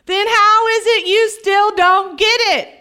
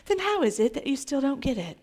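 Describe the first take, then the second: First: Higher, emphatic frustration; exasperated. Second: Soft, understated question; much softer, placid delivery; mild and gentle. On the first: Acted. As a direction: demand it, at your wits' end. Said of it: "That's how Jesus said it". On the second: Shown as a demonstration. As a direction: ask it meekly, no frustration at all. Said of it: "He didn't say it like this".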